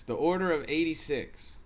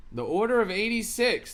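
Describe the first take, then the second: First: Said in the usual way. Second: "The order of eighty-six" said higher, "order" stressed; emphatic announcement. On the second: Shown as a demonstration.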